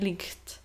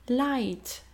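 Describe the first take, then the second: First: A rasping ch sound comes before the t. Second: The gh is silent, no rasping sound. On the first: The speaker calls it wrong. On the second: The speaker calls it right.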